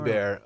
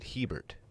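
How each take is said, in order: First: The name is said in a French-style way. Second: The name is said in an English-style way. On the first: It follows the family's language of origin. "Abear I think is a more common way... the dialect of origin" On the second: It is the anglicized form the person uses. "he pronounces it Hebert"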